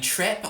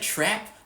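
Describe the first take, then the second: First: The vowel is raised, close to 'e'. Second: The vowel is lower and more open, like 'a'.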